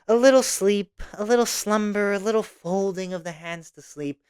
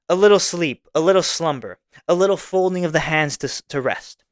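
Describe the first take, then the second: First: It is read in a mocking, lazy tone. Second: It is read in a plain, straight tone.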